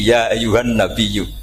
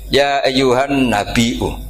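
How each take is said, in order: First: The last word has a doubled y sound, no stop. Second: The last word has a glottal stop before the ending. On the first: "anti hamzah" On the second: "ini mahmusul lam"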